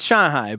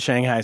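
First: Shanghai is said with a Mandarin Chinese pronunciation. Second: Shanghai is said with an American English pronunciation. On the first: "Chinese people, it's Shanghai" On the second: "everyone in America says Shanghai"

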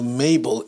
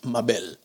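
First: The name is said with an English pronunciation. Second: The name is said with a Spanish pronunciation. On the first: It sounds like a very old-fashioned name. "once you translate it into Mabel, it sounds like it's a 150 years old name" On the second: It is a popular, beautiful name. "one of the most popular and beautiful names in Spanish is Mabel, but of course, it's a very different pronunciation"

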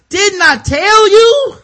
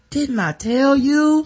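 First: It is said loudly and forcefully. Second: It is said calmly and quietly.

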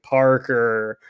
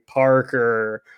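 First: It is said in a weak, half-hearted goblin voice. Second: It is said in a weak, half-hearted goblin voice.

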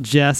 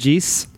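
First: It is said in an American accent. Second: It imitates a New Zealand accent.

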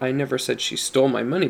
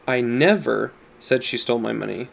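First: The stress is on "stole". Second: The stress is on "never".

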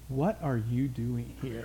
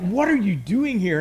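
First: It is said in a fairly gentle tone. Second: It is said in a harsh, unkind tone.

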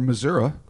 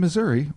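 First: Missouri is said in the local pronunciation. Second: Missouri is said in the general pronunciation.

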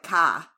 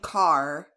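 First: The R is dropped, with a very high A. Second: The final R sound is clearly pronounced. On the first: "they drop the R and put a very high A in there" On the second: "instead of saying car"

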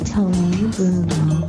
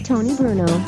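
First: It is said very slowly. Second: It is said very fast.

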